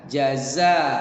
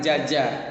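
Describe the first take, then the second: First: The first syllable starts with j, the second with z. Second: Both syllables start with a j sound. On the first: The speaker calls it right. "bedakan antara huruf ja dengan huruf za" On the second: The speaker calls it wrong. "bukan jaja"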